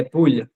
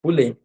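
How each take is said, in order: First: "poule" ending on the L sound, no T; poule without T. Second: "Poulet" ending in a clear pronounced T; Poulet with the final T. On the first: Teacher contrasting chicken words, "poule" without the T. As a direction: say "poule" with no final T. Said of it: "Sem o T no final". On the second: Teacher correcting a student, "Poulet" with the final T. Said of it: "Esse, esse T ... do E forte". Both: Shown as a demonstration.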